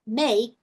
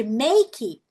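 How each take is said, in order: First: No vowel after the K in 'make'; 'make' ending on K. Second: 'make' said as 'meiki'; wrong 'make' with final vowel. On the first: Teacher correcting learners, 'make' ending on K. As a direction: stop 'make' on the K sound. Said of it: "termina no K". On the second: Teacher showing the learner error, 'make' ending in 'ee'. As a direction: add a Brazilian 'ee' after the K in 'make'. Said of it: "Em vez de make". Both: Shown as a demonstration.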